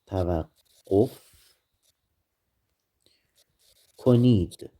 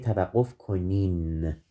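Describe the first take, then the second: First: The last word ends with a d sound. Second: The last word ends with an n sound. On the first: This is the written, formal form. "The plural form of this verb is" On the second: This is the spoken, everyday form. "But when we speak, we don't say توقف کنید. We say توقف کنین"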